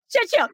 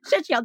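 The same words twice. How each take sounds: First: High warm-up chant; actor warm up. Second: Said in the usual way. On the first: Pretend. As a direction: sing it out high like a vocal warm-up. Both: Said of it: "that's a new warm up".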